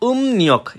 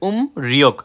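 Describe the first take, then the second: First: The second syllable begins with an n sound. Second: The second syllable begins with an r sound. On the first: The speaker calls it right. "কিন্তু সঠিক উচ্চারণ উম নিয়ক" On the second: The speaker calls it wrong. "আমি কিন্তু সার্চ দিছি ভাই উম রিয়ক"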